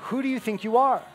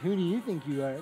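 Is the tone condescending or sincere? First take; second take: sincere; condescending. First: The tone is sincere and genuinely questioning. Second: The tone is negative and condescending. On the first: The speaker genuinely asks about identity. The speaker calls it right. "No, not like that. But" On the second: The speaker is putting the listener down. The speaker calls it wrong. "not in that negative, condescending"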